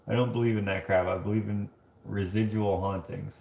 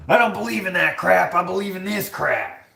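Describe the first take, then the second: First: Said in the usual way. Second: High, exaggerated indignation; mock the commenter, pitched way up; hammed-up outraged declaration; mock indignant rant. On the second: Mocks the comment just read.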